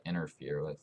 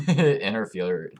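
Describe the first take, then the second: First: Said in the usual way. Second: Slow word through a laugh. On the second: Real, not acted. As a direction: laugh while saying it. Laughing at own stumble.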